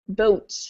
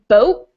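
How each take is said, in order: First: The final T is fully released through the mouth. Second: The final T stops in the back of the throat. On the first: The pronunciation is exaggerated for some reason. "I don't usually say that, unless I'm exaggerating my pronunciation" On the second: This is the usual everyday pronunciation. "Usually I say boat"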